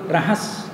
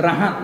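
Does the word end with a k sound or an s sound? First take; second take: s sound; k sound. First: The word ends with an s sound. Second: The word ends with a k sound. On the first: This is the reading that follows the spelling. "Kalau baca betul rahas" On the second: This is how the word is actually said. "tapi kaedah taklah baca rahas, baca rahak"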